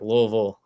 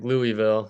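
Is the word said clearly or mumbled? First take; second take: mumbled; clearly. First: The word is said mumbled, with squashed syllables. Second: The word is said with clear, full syllables. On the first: This is how the speaker says it now. "like my mouth is full of marbles now" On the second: This is how the speaker said it growing up. "because I grew up probably saying like Louisville"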